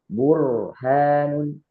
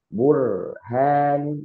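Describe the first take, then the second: No difference in how they are said.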